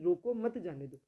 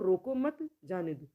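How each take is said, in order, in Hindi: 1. पहले शब्द के बाद विराम है। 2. दूसरे शब्द के बाद विराम है। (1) "रोको के बाद अल्प विराम लगा है" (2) "मत के बाद में विराम चिन्ह लगा है"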